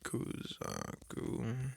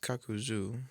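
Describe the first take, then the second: First: The name is said with syllables ku-za-ku. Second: The name is said with syllables ka-ku-zu. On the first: The speaker calls it wrong. "that's how I say it. I mean, it's probably wrong" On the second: The speaker calls it right. "so it's Kakuzu"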